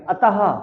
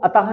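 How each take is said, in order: First: The word ends with an audible 'h' breath. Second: The word ends on a plain 'ta' sound. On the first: The speaker calls it right. "Last में हा का उच्चारण निकलना चाहिए" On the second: The speaker calls it wrong. "इसको अतः नहीं बोलेंगे"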